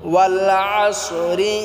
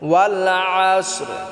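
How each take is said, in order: First: The word ends with an added i vowel. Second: The word stops on a bare final r sound. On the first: The reciter continues into the next words. "আর যদি আমরা এটা একসাথে মিলিয়া পড়ি, না থামি এখানে" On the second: The reciter stops after this word. "এখানে যদি আমরা থামি তাহলে আমাদেরকে রাটাকেও সাকিন করে পড়তে হবে।"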